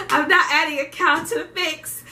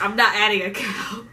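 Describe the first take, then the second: First: Higher and laughing through "I'm not adding a cow"; a laughing retelling of refusing the beef. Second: Said in the usual way. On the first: Real, not acted. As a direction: crack up while saying it.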